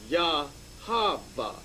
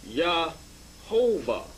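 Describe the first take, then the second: First: Yahava, stretched very slowly, the corrected form; more correct form. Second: Yahovah, stretched very slowly, syllable by syllable; first form read out. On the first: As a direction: present Yahava slowly as the right reading. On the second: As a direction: draw Yahovah out slowly as the less correct form. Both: Shown as a demonstration. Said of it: "or more correctly".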